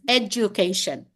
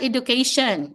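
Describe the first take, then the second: First: It is said without a Filipino accent. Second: It is said with a Filipino accent. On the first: The speaker calls it right. "it's education" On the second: The speaker calls it wrong. "It's not education, ... that's a Filipino way of saying that"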